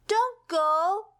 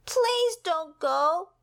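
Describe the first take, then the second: First: High, pleading cry of "don't go"; begging. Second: Slow, high, drawn-out plea; pleading. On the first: Pip begs the vanishing rainbow to stay, high and pleading. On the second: Pip pleads again with the rainbow, slow and high. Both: Acted. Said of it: "begged Pip".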